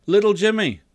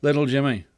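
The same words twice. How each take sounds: First: Raised, carrying summons; calling out. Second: Put-on mild, restrained call to a child; calling, calmer. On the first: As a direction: call to a child outside, high and loud. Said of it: "God calls". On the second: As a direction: call the name gently, barely raised. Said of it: "calls God". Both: A narrator's reading.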